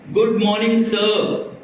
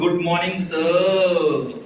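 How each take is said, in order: First: It is said normally and respectfully. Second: It is said in a deeper, changed tone.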